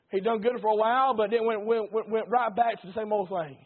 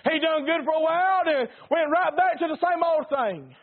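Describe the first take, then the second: First: Said in the usual way. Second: Higher and louder second time; emphatic repeat. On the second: Shown as a demonstration. Preacher driving the point at the congregation, emphatic. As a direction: hammer the point home. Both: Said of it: "repeats the line louder".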